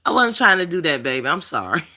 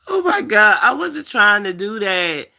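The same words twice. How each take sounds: First: Saying sorry gently through tears; tearful apology. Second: High, weepy and insistent; pleading through real tears; tearful apology. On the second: Telling her viewers she didn't mean it, weepy. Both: Real, not acted. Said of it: "bust out crying".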